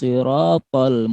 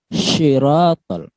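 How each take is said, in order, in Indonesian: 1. Kata ini diawali dengan s emfatik. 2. Kata ini diawali dengan bunyi sy. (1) "Dia pakai huruf so" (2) "Bukan syiratal"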